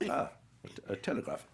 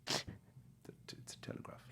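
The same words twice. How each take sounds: First: Lightly acted stammer on reading; Anthony Hopkins. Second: Faint, halting whisper; timid whisper. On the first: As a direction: stumble slightly, then say it evenly. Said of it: "And he goes". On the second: Retold or imitated. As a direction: barely get the words out. Nervous extra's botched first line.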